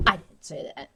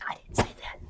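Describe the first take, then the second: First: Said in the usual way. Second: Breathy whispered aside; under-the-breath denial. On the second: Real, not acted. Aside denying a remark.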